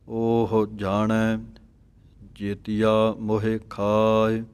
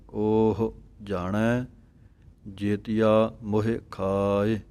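First: Slow, ਉਹ opened upward. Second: Slow, ਉਹ lifted upward; rising ਉਹ. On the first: Teacher models ਉਹ for students. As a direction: lift ਉਹ with a light aunkar. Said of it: "ਇਹ ਪਾਠ ਇਸ ਤਰ੍ਹਾਂ ਪੜ੍ਹਨਾ ਹੈ". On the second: Teacher repeats ਉਹ after explaining. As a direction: open ਉਹ with a rise, short aunkar. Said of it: "ਇਹਦੀ ਆਵਾਜ਼ ਜ਼ਿਆਦਾ ਦੇਣੀ ਹੈ ਉੱਪਰ ਨੂੰ". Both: Shown as a demonstration.

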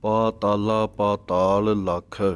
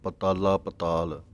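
First: ਪਾਤਾਲਾ ਪਾਤਾਲ slowly, every aa held long; deliberate model reading of ਪਾਤਾਲਾ with full long vowels; long vowels sounded. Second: ਪਤਾਲਾ ਪਤਾਲ with short first a in both words; quick misreading of ਪਤਾਲਾ ਪਤਾਲ without the long pa; mistaken short vowels. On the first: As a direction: stretch the paa and taa in ਪਾਤਾਲਾ ਪਾਤਾਲ. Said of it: "ਇਸ ਤਰ੍ਹਾਂ ਬੋਲਣਾ ਹੈ ਕੰਨਿਆਂ ਦੇ ਨਾਲ". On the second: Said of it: "ਕਈ ਪਤਾਲਾ ਕਹਿੰਦੇ ਹਨ". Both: Shown as a demonstration.

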